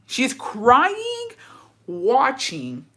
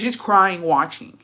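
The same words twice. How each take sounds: First: "crying" soaring high and held, then slow "watching"; drawn-out emphasis. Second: Said in the usual way. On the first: Real, not acted. Teller stressing the wife's tears to listeners, "crying" high and drawn out. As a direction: stretch "crying" upward in disbelief, linger on "watching".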